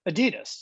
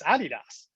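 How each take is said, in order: First: It is said the American way. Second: It is said the European way. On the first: "In the U S, you know, we pronounce it" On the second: "But the rest of the world, no, it's"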